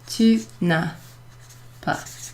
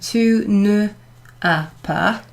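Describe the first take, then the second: First: Ne is shortened and joined to the vowel. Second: Ne is said as a separate full syllable. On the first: The speaker calls it right. "you will say" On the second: The speaker calls it wrong. "instead of saying"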